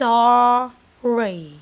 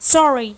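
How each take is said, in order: First: The word is said slowly. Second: The word is said fast.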